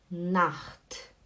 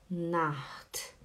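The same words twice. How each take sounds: First: "Nacht" with a rasping ch in the throat; German Nacht. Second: "Nacht" said as "nat", the ch dropped; softer Nacht. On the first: Teacher modelling "Nacht" with a rasping ch. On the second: Teacher showing the softer "Nacht" spoken as "nat". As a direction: say "Nacht" as "nat", with no throat sound. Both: Shown as a demonstration.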